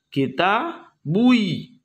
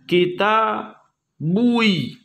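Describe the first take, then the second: No difference in how they are said.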